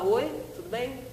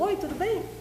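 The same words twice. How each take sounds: First: The greeting is said with less energy. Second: The greeting is said with full energy. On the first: "Falou um pouquinho menos" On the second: "o cara sempre repete aquele jeitinho"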